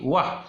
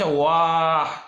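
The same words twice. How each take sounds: First: The vowel is kept short. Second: The vowel is drawn out long. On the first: The speaker calls it right. "tapi wah. Berarti itu tidak dibaca mad" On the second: The speaker calls it wrong. "Tidak dibaca wah"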